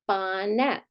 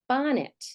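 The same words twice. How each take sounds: First: The second vowel is a full short e. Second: The second vowel is a reduced short i. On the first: The speaker calls it wrong. "But do we say bonnet?" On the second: The speaker calls it right. "This E is flexing to something like the short I phoneme"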